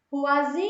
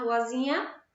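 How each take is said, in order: First: "Ruazinha" called out loudly with a long-held "zi"; calling out the word. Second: Said in the usual way. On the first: Shown as a demonstration. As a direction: stretch the stressed "zi" in "Ruazinha" as if calling. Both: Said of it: "Vamos chamar ruazinha?".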